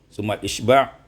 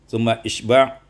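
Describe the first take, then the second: The two takes are said the same way.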